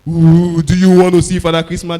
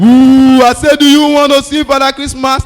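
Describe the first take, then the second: First: Louder spooky Santa growl; spooky mock Santa, loud; scary Father Christmas. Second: High, loud spooky Santa roar; booming spooky Father Christmas, at full force; scary Santa, all out. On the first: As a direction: frighten the child as Santa. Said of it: "threatening... do something like this". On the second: Retold or imitated. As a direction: give it everything to scare him. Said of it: "third time".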